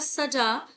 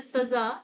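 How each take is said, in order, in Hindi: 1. बीच का व्यंजन 'ज' की आवाज़ है। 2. बीच का व्यंजन 'ज़' की आवाज़ है। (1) "तो सजाया हुआ" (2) "तो क्या हो गया दंड"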